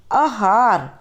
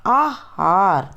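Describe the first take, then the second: First: आहार said as the wrong form the teacher warns against; wrong form first. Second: आहार slow and careful as the correct form; correct pronunciation. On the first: Teacher shows students the wrong way, mistaken pronunciation. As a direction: show the class the mistaken आहार before correcting it. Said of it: "आहार नहीं होता". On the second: Teacher gives students the correct form, slow careful pronunciation. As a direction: pronounce आहार very slowly, correctly. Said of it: "फिर हम शुद्ध उच्चारण करके बताएंगे". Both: Shown as a demonstration.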